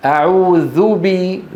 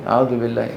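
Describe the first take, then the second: First: أعوذ said slowly with a full rounded u before بي; full damma demo. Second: أعوذ بالله dropped low and soft with the final vowel swallowed; wrong clipped damma. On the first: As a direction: stretch the ذ into ذُ slowly. (أعوذ ببطء مع ضمة كاملة) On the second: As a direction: clip the ending lazily. (أعوذ بالله بلا ضمة وبصوت منخفض) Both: Shown as a demonstration. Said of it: "مو أعوذ بالله".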